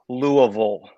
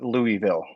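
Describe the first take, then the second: First: The name is said with the local pronunciation. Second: The name is said with an outsider pronunciation. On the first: The speaker lives in the city. The speaker calls it right. "that's how it's pronounced ... if you live here, that's how you say it" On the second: The speaker does not live in the city. The speaker calls it wrong. "if you don't live here, you call it Louisville"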